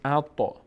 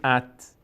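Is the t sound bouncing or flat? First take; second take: bouncing; flat. First: The t bounces with a slight echo. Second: The t is held flat with no echo. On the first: The speaker calls it right. "میگیم اطا، مقداری تا میلرزه" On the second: The speaker calls it wrong. "نمیگیم ات"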